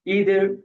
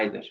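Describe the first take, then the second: First: It is said with an American accent. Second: It is said with a British accent.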